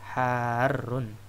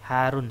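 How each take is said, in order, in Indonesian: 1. Bunyi r-nya ditahan dan dobel. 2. Bunyi r-nya pendek dan tunggal. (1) "Yang betul harun" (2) "Harun salah"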